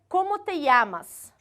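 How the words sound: It is said with a Peruvian accent.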